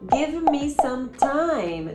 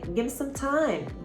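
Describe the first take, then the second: First: Each word is said fully and separately. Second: The words are reduced and run together. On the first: The speaker calls it wrong. "Também não vai ser" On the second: The speaker calls it right. "Não, vai ser"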